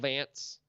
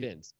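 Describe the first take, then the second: First: The vowel is shifted, imitating another accent. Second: The vowel is said in a plain, ordinary way. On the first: This is how another commentator says the name. "it's the way Mike says it" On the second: This is the name as actually spelled. "obviously Vince, V I N C, of course"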